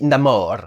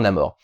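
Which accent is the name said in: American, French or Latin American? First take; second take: Latin American; French. First: The name is said with a Latin American accent. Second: The name is said with a French accent. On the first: This is how the character himself says it. "comme il est latin, il dit Namor" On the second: This is how French speakers would probably say it. "Les Françaises diront, diront probablement"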